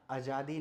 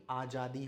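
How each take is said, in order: First: आज़ादी with short initial a and a j sound; common mispronunciation. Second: आज़ादी with long initial aa and a j sound; correct pronunciation. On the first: Teacher showing the wrong form, आज़ादी starting on short a. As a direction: say आज़ादी as "a-jaadi". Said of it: "अगला आज़ादी नहीं". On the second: Teacher correcting, आज़ादी starting on long aa. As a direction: say आज़ादी as "aa-jaadi". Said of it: "आज़ादी होता है". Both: Shown as a demonstration.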